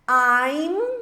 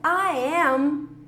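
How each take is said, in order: First: The two words merge into one syllable. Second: Both words are said fully and separately. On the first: "contraído fica I'm" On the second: "I am contraído fica"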